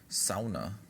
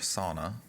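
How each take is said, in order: First: It is said in a non-American way. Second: It is said in an American way.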